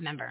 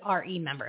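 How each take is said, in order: First: The first syllable 're' is slurred away. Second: The first syllable 're' is clearly enunciated. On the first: The speaker calls it wrong. "not member" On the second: The speaker calls it right. "it's RE member"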